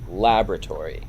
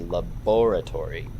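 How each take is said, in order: First: The stress falls on a non-British syllable. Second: The stress falls on the British syllable. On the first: "we were putting the stress on a different syllable, like laboratory" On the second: "the British people. They say laboratory"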